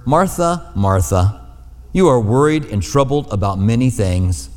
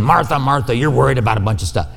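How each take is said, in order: First: Tender. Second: Rushed, brushing-off rebuke; dismissive. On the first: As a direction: say her name twice like a caring friend. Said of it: "These are tender words". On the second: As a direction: rattle it off as if annoyed with her. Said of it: "I can't imagine him saying". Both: Retold or imitated.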